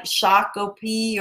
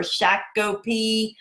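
First: Shakopee with "ah" in the first syllable, SHAH-ko-pee; first pronunciation guess. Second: Shakopee with short flat "a" as in "shack", SHACK-o-pee; alternative pronunciation. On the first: Host offering Minnesota viewers one guess, Shakopee as SHAH-ko-pee. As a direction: say Shakopee opening on a broad "shah". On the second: Host offering Minnesota viewers another guess, Shakopee as SHACK-o-pee. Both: Shown as a demonstration. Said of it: "I said your name wrong".

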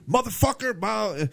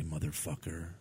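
First: High, loud in-your-face yell; Samuel L. Jackson. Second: Very low, soft Steven Seagal voice. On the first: Retold or imitated. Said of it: "so loud and in your face". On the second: Shown as a demonstration. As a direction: say it low and calm. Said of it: "very low".

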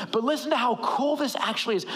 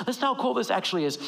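First: Said in the usual way. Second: Fast, eager repeat of the line; quick repeat. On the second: Shown as a demonstration.

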